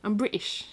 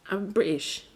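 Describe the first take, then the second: First: I'm British said with a light British lilt; British accent. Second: British accent. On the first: Telling viewers I'm British in a mock British accent. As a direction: put on a touch of a posh British accent. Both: Shown as a demonstration. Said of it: "See, I even say British".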